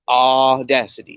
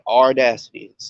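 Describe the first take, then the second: First: The first syllable has no R sound. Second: The first syllable has an R sound. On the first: The speaker calls it right. "You can say aw, audacity" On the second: The speaker calls it wrong. "not audacity. There's no R in there"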